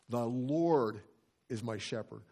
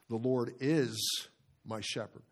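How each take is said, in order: First: The stress falls on "Lord". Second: The stress falls on "is".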